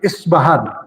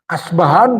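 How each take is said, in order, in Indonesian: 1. Diawali dengan vokal i dan b. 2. Diawali dengan vokal a dan b. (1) "dengan kasroh pada alif"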